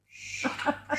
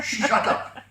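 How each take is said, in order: First: Unvoiced, high hissed shut up; whispered hiss. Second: Mock him while laughing. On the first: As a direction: hiss it as a devil. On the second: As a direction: shut up with a laugh, louder. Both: Devil silencing the Finn.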